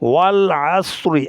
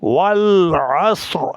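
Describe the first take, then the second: First: The word ends with a short 'i' vowel. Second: The word ends on a bare 'r' sound. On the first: The recitation continues without stopping. "র আর নিচে জের আছে" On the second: The reciter stops at this word. "এখানে ওয়াকফ করা হয় ... জয়জম দিয়ে পড়েন"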